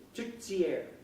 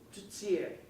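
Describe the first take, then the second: First: The t in the middle sounds like ts. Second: The same.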